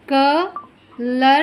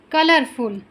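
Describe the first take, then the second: First: कलरफुल slowly split as क, लर, फुल; long pauses inside कलरफुल, one beat at a time; syllable by syllable. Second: Said in the usual way. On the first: Shown as a demonstration. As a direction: break कलरफुल into clappable parts. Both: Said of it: "जितने syllable होंगे".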